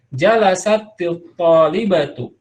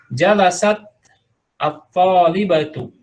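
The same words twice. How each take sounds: First: The words run together with a linking i sound. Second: The words are said apart, with a glottal start. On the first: "tapi kalau disambung" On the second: "tapi kalau dipisah"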